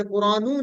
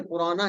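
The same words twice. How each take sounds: First: कुरानू with a final "oo" sound; the mistaken "-oo" ending on कुरानू; wrong final vowel. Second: कुराना with a final "aa" sound; the corrected "-a" ending on कुराना; zabar ending. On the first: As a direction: end कुरानू on "nū". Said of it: "यहाँ पे कुरानू नहीं है". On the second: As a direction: end कुराना on "na". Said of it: "कुराना है". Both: Shown as a demonstration.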